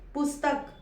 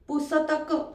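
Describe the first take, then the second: First: The middle s is cut short, joined to t. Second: The middle s is said as a full syllable. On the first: The speaker calls it right. "स आपण अर्धच म्हटला" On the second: The speaker calls it wrong. "आपण पुस्तक असं म्हणतोय का? नाही"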